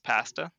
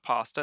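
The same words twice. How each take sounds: First: The first vowel is a hard a. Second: The first vowel is a soft a. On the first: The speaker calls it right. "our A's are typically hard" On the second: The speaker calls it wrong. "It's not pasta"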